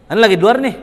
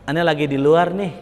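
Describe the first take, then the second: First: "Ane lagi di luar nih" higher and louder, stressing "luar"; higher and louder "luar" snapped out; different intonation. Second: Said in the usual way. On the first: Shown as a demonstration. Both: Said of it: "Kan beda, intonasi beda".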